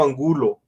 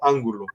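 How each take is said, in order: First: The stress is on the second syllable. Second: The stress is on the first syllable. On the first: This is the speaker's surname. The speaker calls it right. "mi apellido Angulo" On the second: This is not the speaker's surname. The speaker calls it wrong. "no Ángulo"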